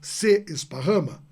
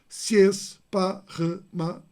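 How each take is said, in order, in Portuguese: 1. Os dois sons de e são falados como sílabas separadas. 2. Os dois sons de e se juntam numa só sílaba. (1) "eu não digo se esparrama" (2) "aqueles dois es se juntam, eu digo se esparrama"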